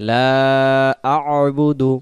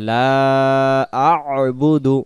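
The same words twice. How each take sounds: No difference in how they are said.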